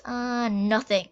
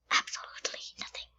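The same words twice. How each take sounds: First: Said in the usual way. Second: Quick whispered absolutely nothing; fast hushed whisper. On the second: Real, not acted. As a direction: breathe it out fast as a secret. Same word, now whispered.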